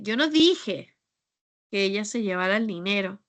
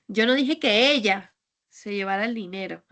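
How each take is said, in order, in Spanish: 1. La palabra 'dije' lleva el acento principal. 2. La palabra 'ella' lleva el acento principal. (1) "Es que tal vez pues dije otra cosa o hice otra cosa" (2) "es que igual fue otra persona"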